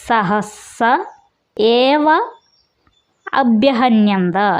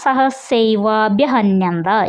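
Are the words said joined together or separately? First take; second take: separately; joined. First: The words are split apart and said separately. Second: The words are merged into one joined word. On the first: "പിരിച്ച് പറയണം" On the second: "ചേർത്ത് പറയുമ്പോഴാണ്"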